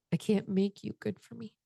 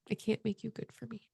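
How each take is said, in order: First: Sad admission. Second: Near tears. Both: Retold or imitated. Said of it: "And I said".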